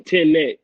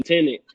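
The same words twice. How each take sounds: First: "Tenet" said carefully as two separate syllables; corrected pronunciation. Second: "Tenet" as a Southern slip of the tongue, N slipped in; country-accent slip. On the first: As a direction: correct yourself firmly on "Tenet", sounding out both halves. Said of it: "I keep saying Tenet. It's Tenet". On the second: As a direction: say "Tenet" the habitual country way, with an extra N. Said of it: "if I sound like I'm adding the N in there". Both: Shown as a demonstration.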